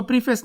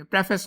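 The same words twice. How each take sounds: First: प्रीफेस with a long "pree" first syllable; mispronunciation demo. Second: प्रेफेस with a short "preh" first syllable; correct pronunciation. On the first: Teacher warning students off a misreading, प्रीफेस mispronounced with "pree". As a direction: say प्रीफेस as "PREE-fess", stretching the ee vowel. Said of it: "इसको प्रीफेस नहीं पढ़ेंगे". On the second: Teacher correcting the reading for students, प्रेफेस pronounced with "preh". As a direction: say प्रेफेस as "PREH-fess", with an e as in "pref". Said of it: "प्रेफेस होता है". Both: Shown as a demonstration.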